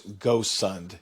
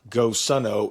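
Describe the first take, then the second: First: The name ends on the consonant 'd'. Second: The name ends with an extra 'o' vowel. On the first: The speaker calls it right. "it's GoSund" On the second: The speaker calls it wrong. "I also mispronounced the name. It's not GoSundo"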